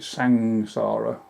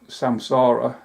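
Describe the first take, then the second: First: The nasal before the s is an ng sound. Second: The nasal before the s is an m sound. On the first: "in fact they pronounce it sangsara, so the M becomes N G" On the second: "you've heard the word like samsara"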